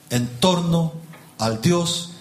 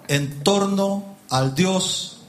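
Both takes have the same delivery.

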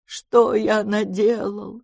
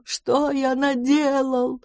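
First: Лёгкое рыдание, очень медленно; причитать, растягивая слова; рыдая. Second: Причитание выше и очень медленно; рыдать, растягивая каждое слово; рыдая. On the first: (медленное причитание) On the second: (рыдающее причитание, выше) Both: A narrator's reading. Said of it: "громко зарыдал".

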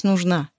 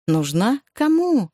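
First: Said in the usual way. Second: "Нужна?" rising, then "Кому?" pitched high; incredulous echo question. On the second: A narrator's reading. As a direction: throw "Нужна?" back as a question, leap up on "Кому?". Husband mockingly echoes wife's word.

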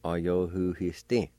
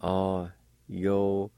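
First: Said in the usual way. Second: "A-yo-hu-he-stin" very slowly, syllable by syllable; syllable-by-syllable pronunciation. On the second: Shown as a demonstration. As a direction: sound out "A-yo-hu-he-stin" with a long pause after each syllable. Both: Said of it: "It's pronounced like this".

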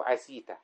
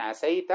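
First: "عسيت" said ʕasītu, i after the sin; "عسيت" with kasra, ʕa-sī-tu; "عسيت" with a long i on the sin. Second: "عسيت" said ʕasaytu, open a after the ʕ; "عسيت" with fatha, ʕa-say-tu; "عسيت" with a clear open a on the sin. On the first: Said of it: "أو". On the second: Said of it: "إما أن تقول مثلًا". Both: Shown as a demonstration.

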